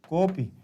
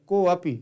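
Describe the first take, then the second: First: It is joined into one word, kopi. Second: It is split into two parts, ko and api. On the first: The speaker calls it right. "इसको पढ़ना पड़ेगा आपको कोपी" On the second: The speaker calls it wrong. "जो को अपी पढ़ते हैं वो गलत पढ़ते हैं"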